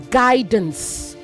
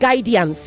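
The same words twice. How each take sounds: First: No extra vowel sound follows the D. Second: An extra 'i' sound follows the D. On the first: The speaker calls it right. "it is guidance ... After D, there's no I" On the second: The speaker calls it wrong. "it's also not guidance"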